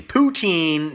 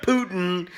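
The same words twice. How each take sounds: First: Put-on Poutine as poo-TEEN, stress on the end; Poutine said carefully. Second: Putin as POO-tin, stress on the first syllable; Putin said as contrast. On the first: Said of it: "not Putin". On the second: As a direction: say Putin like the Russian leader's name. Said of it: "not Putin, that Russian asshole". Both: Shown as a demonstration.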